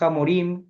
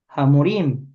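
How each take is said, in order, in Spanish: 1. El primer sonido de la h es áspero y gutural. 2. El primer sonido de la h es suave y ligero. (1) "si por alguna razón una persona dice Hamorim" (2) "la hey suena un poquito"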